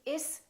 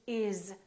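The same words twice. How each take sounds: First: The word ends with a hissing s sound. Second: The word ends with a buzzing z sound. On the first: The speaker calls it wrong. "We don't say" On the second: The speaker calls it right. "We say"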